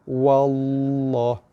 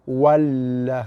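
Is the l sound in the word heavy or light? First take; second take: heavy; light. First: The l sound is heavy and thick. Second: The l sound is light and thin. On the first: The speaker calls it right. "huruf lam pada nama Allah dibaca dengan tebal" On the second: The speaker calls it wrong. "tu lam nipis. Ha, tak betul bacaannya"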